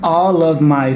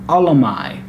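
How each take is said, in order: First: The word of is said in full. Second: The word of is reduced to uh.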